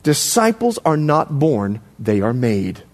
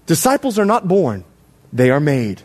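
First: Low, slow and deliberate; slow dictation. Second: Said in the usual way. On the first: Shown as a demonstration. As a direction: spell out "Disciples are not born" slowly for note-takers. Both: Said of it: "I want you to write this down".

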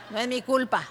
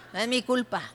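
The two takes are said the same way.

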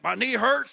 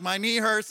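First: Loud, higher mock country accent; hammed-up folksy accent of an amateur forecaster; put-on folksy accent. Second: Said in the usual way. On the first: Pastor mimicking weather-predicting people, in their folksy accent. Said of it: "they talk in that accent". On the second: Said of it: "I'm one of those people".

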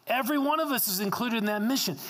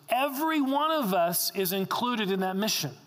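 First: Higher and fast, pressing the point; a pastor insisting that everyone is included in the mission; emphatic repeat. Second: Said in the usual way. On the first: Shown as a demonstration. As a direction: say it again with more urgency. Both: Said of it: "repeated for emphasis".

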